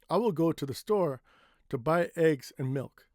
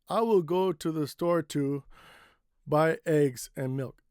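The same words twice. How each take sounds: First: Pauses fall only between the phrases. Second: A pause breaks the middle of a phrase. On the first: The speaker calls it right. "It's better to take a break here or here" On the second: The speaker calls it wrong. "This is a bad place to take a break"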